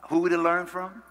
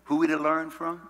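Both takes have the same delivery.

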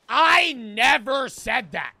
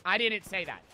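First: Much louder, slow and firm; loud slow retort. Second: Stone cold. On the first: Interrupting the professor, loud slow mock retort. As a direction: cut him off hard. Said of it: "I don't say it like that". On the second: Student staring down professor, stone cold and low. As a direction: say it flat to his face, unmoved. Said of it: "I look him stone cold in the face". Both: Retold or imitated.

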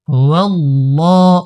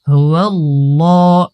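Both takes have the same delivery.

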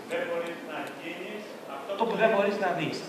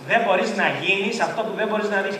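First: Soft, slow, distant quote; quoted line. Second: Said in the usual way. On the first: Shown as a demonstration. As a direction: read it like a hushed quotation. (σιγανό, αργό απόσπασμα από βιβλίο) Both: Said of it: "πώς το έγραψε στο βιβλίο".

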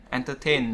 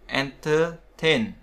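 First: Said in the usual way. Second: Entertain drawn out slowly syllable by syllable; slow careful en-ter-TAIN for entertain; pronunciation demo. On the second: Shown as a demonstration. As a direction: spell out entertain by sound, slowly. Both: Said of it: "entertainment là trường hợp ngoại lệ".

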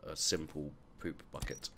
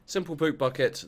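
First: Said in the usual way. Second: A mock-triumphant loud proclamation; loud high exclamation. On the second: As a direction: shout Simple poop bucket high and loud. Repeats item name loudly.

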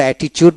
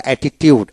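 First: "অ্যাটিটিউড" ending in a "chud" sound; common pronunciation. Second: "অ্যাটিটিউড" with "tiud" at the end, no "ch"; correct pronunciation. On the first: Teacher showing how we usually say it, common pronunciation. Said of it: "আমরা অ্যাটিটিউড বলি". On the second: Teacher correcting the usual form for learners, correct pronunciation. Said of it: "উচ্চারণটা অ্যাটিটিউড". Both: Shown as a demonstration.

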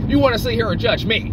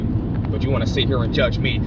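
First: Bristling, raised voice; indignant outburst. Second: Said in the usual way. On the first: Acted. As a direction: throw the accusation back at them. Repeats accusation, second time louder.

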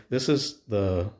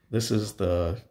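No difference in how they are said.

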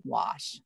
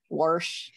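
First: WASH with an open AH, no R; corrected pronunciation. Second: WORSH with an R before the SH; country pronunciation. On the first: Country girl retraining herself to say it, corrected standard pronunciation. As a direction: say "wash" carefully, lower and softer, without any R. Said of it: "had to tell myself to say". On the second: Illinois country girl showing how she grew up talking, rural pronunciation. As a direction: say it "worsh", r-coloured vowel. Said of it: "grew up saying". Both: Shown as a demonstration.

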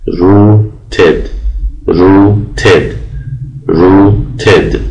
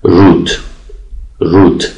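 First: "روتد" slowly as ru-ted, two clear beats; two syllables, slow. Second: "روت" said as one short syllable. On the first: Teacher slowly drilling "روتد" as two syllables. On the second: Teacher contrasting "روت" before the ending, one syllable. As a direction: keep "روت" to a single beat. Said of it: "فقط یک هجا داره". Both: Shown as a demonstration.

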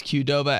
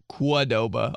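First: Said in the usual way. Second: "Quadoba" starting with kwa for Q; mispronounced Qdoba. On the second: Retold or imitated. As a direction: say "Quadoba" with a kw sound. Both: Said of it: "My mom says Qdoba as".

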